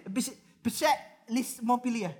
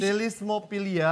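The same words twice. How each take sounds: First: Pselismopilia sounded out slowly with the P; struggling pronunciation. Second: Selismopilia said without the P, slowly; silent P. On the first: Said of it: "Lu baca apa sih". (mengeja pelan pselismopilia dengan P) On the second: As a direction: say Selismopilia, drop the P. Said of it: "bacanya tetap selismopilia". (Selismopilia tanpa bunyi P) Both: Shown as a demonstration.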